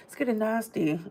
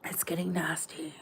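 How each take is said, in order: First: Hushed. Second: Whispered, breathy hush. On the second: Host whispering the warning to her viewers. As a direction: let it fall to a whisper. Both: Shown as a demonstration. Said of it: "repeats the line three ways".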